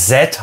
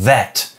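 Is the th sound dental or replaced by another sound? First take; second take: replaced; dental. First: The th is replaced by another sound. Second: The th is made with tongue at teeth. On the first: The speaker calls it wrong. "dass es nicht that heißt" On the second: The speaker calls it right. "sondern that. Also Zunge an die Schneidezähne"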